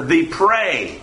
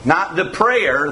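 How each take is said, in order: First: "prey" stressed, one syllable, falling firmly; corrected word. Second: "prayer" said as the wrong word, set up to be corrected. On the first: Preacher corrects prayer to prey, firm stress. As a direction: land on "prey" as the right word. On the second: Preacher contrasts prayer with prey for the listeners. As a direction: say "prayer" plainly, then correct it. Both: Shown as a demonstration.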